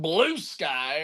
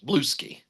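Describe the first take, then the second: First: The name ends with the sound 'sky'. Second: The name ends with the sound 'ski'. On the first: "the old Blue Sky" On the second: "as they say on Fox News"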